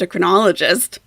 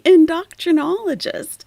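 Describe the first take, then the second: First: It begins with 'en-do' and has no extra 'tr'. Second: It begins with 'in-doc' and has an extra 'tr'. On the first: The speaker calls it right. "heard them say" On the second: The speaker calls it wrong. "I know she's still saying it wrong"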